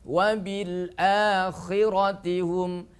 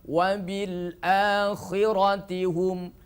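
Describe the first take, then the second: The two takes are said the same way.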